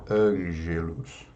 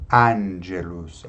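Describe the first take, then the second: First: "angelos" with a closed, nasalised first A; closed nasal A. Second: "Angelus" with a clear open A, slowly. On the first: Teacher showing what to avoid, "angelos" with nasal A. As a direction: say "angelos" Portuguese-style, A muffled through the nose. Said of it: "ao invés de angelos". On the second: Teacher modelling Latin for singers, "Angelus" with open A. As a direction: draw out "Angelus", opening the first A. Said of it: "deixar o A mais aberto". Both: Shown as a demonstration.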